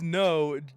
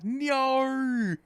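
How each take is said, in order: First: It is said as a plain no. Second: It is an exaggerated Australian 'nyo'.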